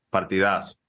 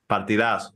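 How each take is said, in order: Both takes have the same delivery.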